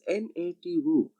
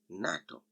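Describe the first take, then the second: First: Each letter is spoken separately, one by one. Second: The letters are blended into one spoken word. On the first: The speaker calls it wrong. "not pronounced separately as NATO" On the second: The speaker calls it right. "it is pronounced as a full word"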